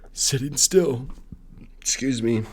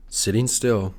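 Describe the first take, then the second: First: Words pushed out through a burp; burping while talking. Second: Said in the usual way. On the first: Real, not acted. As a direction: say sitting still through a burp. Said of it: "I'm sorry, I keep burping". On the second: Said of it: "Excuse me, sorry".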